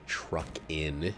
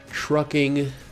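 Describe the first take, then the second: First: The ending is said as a short 'in' sound. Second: The ending is said with a full 'ing' sound. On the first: The speaker calls it wrong. "get sloppy with it and say truck in" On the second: The speaker calls it right. "They always enunciate"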